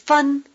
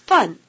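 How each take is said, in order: First: The syllable is said on a high level tone. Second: The syllable is said on a falling tone. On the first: It means cent. "the word for cent is fun with a high tone" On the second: It means copy. "the word for copy is fun with a falling tone"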